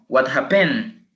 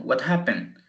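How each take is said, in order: First: Happened wrongly stressed on the last syllable, hap-PENED; misplaced stress. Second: Happened stressed on HAP, falling after; stress on first syllable. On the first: Teacher shows students what we don't say, second-syllable stress on happened. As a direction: push the weight onto the end of happened. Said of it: "no decimos". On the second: Teacher shows how we say it, first-syllable stress on happened. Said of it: "Por cuando decimos". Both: Shown as a demonstration.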